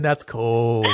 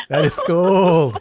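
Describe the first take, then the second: First: Said in the usual way. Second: Slow, every word leaned on, "That is cold"; emphatic repeat. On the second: Real, not acted. Host teasing caller about her prank, slow emphatic "That is cold". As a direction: drag out "That is cold" with mock outrage.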